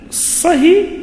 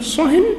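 First: The word ends without an added n sound. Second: The word ends with an added n sound. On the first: Stop this particular talk. "يعني أسكت عن هذا الحديث" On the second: Stop any talk at all. "يعني اسكت عن أي حديث"

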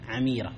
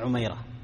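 First: The first vowel is 'a', the second 'i'. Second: The first vowel is 'u', the second 'a'. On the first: The speaker calls it right. "بفتح أوله وكسر ثانية عميرة" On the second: The speaker calls it wrong. "وليس عميرة"

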